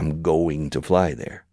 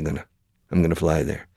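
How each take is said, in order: First: Going to is said in full. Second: Going to is reduced to gonna. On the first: The speaker calls it wrong. "We never say" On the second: The speaker calls it right. "We always say"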